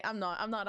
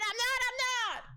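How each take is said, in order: First: Said in the usual way. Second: Much higher and louder, rising to a squeal; escalating mock protest, ending high; building high squeal. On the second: Shown as a demonstration. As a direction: climb up into a playful high squeal. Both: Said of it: "repeats phrase rising each time".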